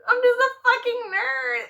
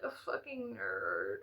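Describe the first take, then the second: First: Higher, louder self-mocking exclamation; exclaimed. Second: Soft, slow muttered admission. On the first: Admitting to viewers she is a nerd, exclaimed loudly. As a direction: own it out loud with a laugh. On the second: Acted. Admitting to viewers she is a nerd, muttered softly. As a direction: mumble it to yourself. Self-deprecating admission, then repeated loudly.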